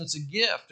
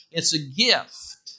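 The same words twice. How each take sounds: First: Said in the usual way. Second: "It's a gift." drawn out very slowly, each word weighted; slow emphatic. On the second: Shown as a demonstration. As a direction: lean on "a gift", slow and deliberate.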